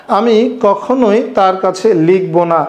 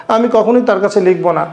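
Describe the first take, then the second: First: কখনোই stressed in a slow "আমি কখনোই তার কাছে লিখব না"; slow teaching stress on কখনোই, falling at the end; emphatic never. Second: Said in the usual way. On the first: Shown as a demonstration. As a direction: drag the line out slowly and press on কখনোই. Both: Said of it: "তাহলে লান একটু জোর দেয়".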